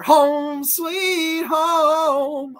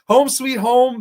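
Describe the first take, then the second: First: Sung, stretch each word very slowly and higher, like a jingle; drawn-out sung jingle. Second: Said in the usual way. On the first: Acted. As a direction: croon the title as a slow tune. Drawn-out jingle of show name.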